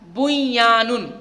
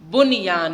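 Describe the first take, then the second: First: The n sound merges into the following y. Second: The n sound is pronounced clearly and separately. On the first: The speaker calls it wrong. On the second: The speaker calls it right.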